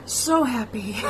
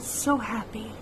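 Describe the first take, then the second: First: "So happy" repeated with weight on "So"; stress on SO. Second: Said in the usual way. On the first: Real, not acted. Daughter echoing how happy her dad was, stressing so. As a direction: lean on "So" in "So happy".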